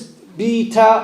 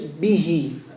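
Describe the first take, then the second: First: The word ends with a clear t sound. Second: The word ends with a soft h sound. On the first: The reader continues to the next word. "If you continue, then it's bi ta" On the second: The reader stops after this word. "If you're going to stop, then it's bihi. It's a ha"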